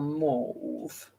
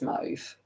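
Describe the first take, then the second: First: It is said with a posh British pronunciation. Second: It is said with an Australian pronunciation. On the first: "I want to sound push, so I'll go mauve" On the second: "we pronounce it in Australia as mauve"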